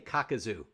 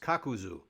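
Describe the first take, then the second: First: The second syllable has an 'ah' vowel. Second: The second syllable has an 'oo' vowel. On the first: The speaker calls it wrong. "Don't say Kakazu" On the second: The speaker calls it right. "It's Kakuzu"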